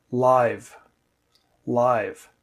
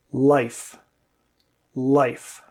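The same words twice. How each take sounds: First: "live" with the vowel held noticeably longer before v; teacher modelling a longer vowel in "live"; lengthened vowel live. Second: "life" with a clipped short vowel before f; teacher modelling short vowel in "life". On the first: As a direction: stretch the vowel in "live" twice. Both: Shown as a demonstration. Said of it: "the vowel is a lot longer".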